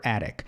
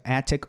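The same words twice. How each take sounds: First: "attic" with a flapped T; second "attic" like A-rick; T softened to tap. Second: "attic" with a crisp T; first "attic" as AT-tick; T fully sounded. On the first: Teacher saying both are the same thing, tapped T. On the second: Teacher saying both are the same thing, crisp T. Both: Shown as a demonstration. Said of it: "a mesma coisa".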